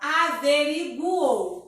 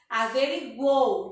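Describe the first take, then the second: First: The final vowels are split into syllables. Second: The final vowels are run together. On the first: The speaker calls it wrong. "A gente não fala averiguou" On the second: The speaker calls it right. "de uma vez só"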